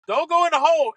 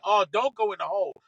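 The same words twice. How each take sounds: First: Higher, louder plea at the ball; urging the ball. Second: Said in the usual way. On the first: Retold or imitated. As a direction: yell at the ball not to drop. Watching the shot fly.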